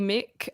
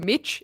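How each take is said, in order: First: The name ends in a k sound. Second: The name ends in a ch sound. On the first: The speaker calls it right. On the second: The speaker calls it wrong.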